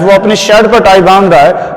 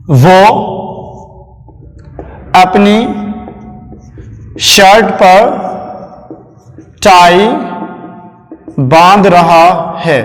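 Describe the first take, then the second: First: Said in the usual way. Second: Word by word, long pauses between. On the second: Shown as a demonstration. Dictating the sentence while writing. (रुक-रुक कर, धीरे-धीरे लिखवाते हुए)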